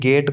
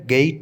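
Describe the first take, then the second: First: The vowel is a plain short e. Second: The vowel glides from e to i. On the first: The speaker calls it wrong. "गेट को नहीं होवे" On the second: The speaker calls it right. "गेट होता है"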